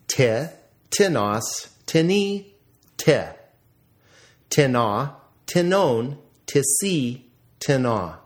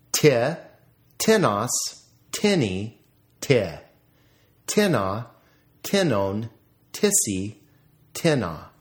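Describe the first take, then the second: First: TiNOS, tiNI, tiNA, weight on each final syllable; stress on second syllable. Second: TENos, TINny, TINna, weight on each opening syllable; stress on first syllable. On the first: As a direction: recite the forms stressing the end, as in tiNON, tiSI. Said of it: "notice the accent on the second syllable". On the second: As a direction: recite the forms stressing the start, as in TINnon, TISsy. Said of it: "accent on the first syllable". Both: Shown as a demonstration.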